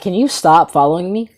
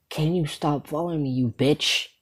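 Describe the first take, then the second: First: Exasperated, normal-volume complaint; irritated plea at talking level; annoyed request. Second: Hushed exasperated insult; muted irritation. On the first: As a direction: ask it openly, fed up. First request to the follower. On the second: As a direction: say it under your breath, annoyed. Second, fed-up request to follower. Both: Retold or imitated.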